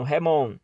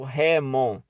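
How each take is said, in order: First: The stress is on the last syllable. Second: The stress is on the first syllable. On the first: The speaker calls it right. "a tônica é no mon" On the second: The speaker calls it wrong. "não é no remon"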